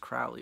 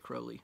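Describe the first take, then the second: First: The name is said a non-British way. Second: The name is said the British way. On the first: This is how the speaker always assumed it was said. The speaker calls it wrong. "I always thought it was Crowley" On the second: This is how British people say it. The speaker calls it right. "the Brits say Crowley"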